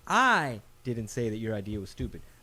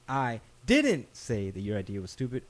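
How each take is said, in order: First: The first word, I, is stressed. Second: The second word, didn't, is stressed.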